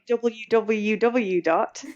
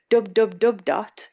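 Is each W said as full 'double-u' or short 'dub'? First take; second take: full; short. First: Each W is said in full, double-u. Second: Each W is shortened to one syllable, dub. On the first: "saying w w w dot" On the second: "Dub dub dub dot instead of"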